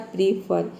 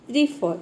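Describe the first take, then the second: First: The final r sound is clearly pronounced. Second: The final r is silent and the vowel is lengthened. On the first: The speaker calls it wrong. "तो प्रीफर आपको नहीं पढ़ना है" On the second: The speaker calls it right. "र के जगह पे आपको अ का साउंड देना है, यानी कि फ को थोड़ा लंबा बोलना है"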